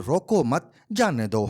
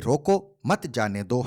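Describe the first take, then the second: First: روکو مت said together, then جانے دو; pause after مت. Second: روکو set apart, then مت جانے دو run together; pause after روکو. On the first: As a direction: join روکو مت, break, then release جانے دو. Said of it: "ہے یا پھر". (روکو مت کے بعد وقفہ، پھر جانے دو) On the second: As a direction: break after روکو, keeping مت joined to جانے دو. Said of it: "یہ روکو مت جانے دو ہے یا پھر". (روکو کے بعد وقفہ، مت جانے دو ایک ساتھ) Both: Shown as a demonstration.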